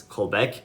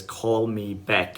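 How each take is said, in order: First: Said in the usual way. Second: Slow, deliberate call me back; slow and drawn out. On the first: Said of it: "if somebody tells us". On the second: Shown as a demonstration. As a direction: stretch each word out slowly. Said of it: "if somebody says".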